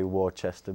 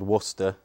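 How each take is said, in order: First: Worcester is said with an American pronunciation. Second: Worcester is said with a British pronunciation. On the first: "Americans say Worcester" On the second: "it's called Worcester"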